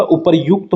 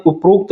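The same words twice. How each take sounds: First: "उपरयुक्त" with a yu sound, upar-yukt; correct form demonstrated. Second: "उपरोक्त" with an o, up-rokt; wrong form demonstrated. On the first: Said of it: "उपरयुक्त होता है". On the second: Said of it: "उपरोक्त नहीं होता". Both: Shown as a demonstration.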